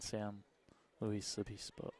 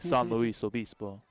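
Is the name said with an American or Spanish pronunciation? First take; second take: American; Spanish. First: The name is said with an American English pronunciation. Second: The name is said with a Spanish pronunciation. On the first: "But Americanized" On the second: "If you want to say it correctly in Spanish"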